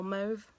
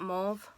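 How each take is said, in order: First: "Mauve" with a long OH, like mohv; "Mauve" as mohv, vowel as in "go"; alternate pronunciation. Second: "Mauve" with an AW vowel, like mawv; "Mauve" as mawv, open rounded vowel; alternate pronunciation. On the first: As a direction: say "Mauve" to rhyme with stove. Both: Shown as a demonstration. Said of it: "however you want to pronounce it".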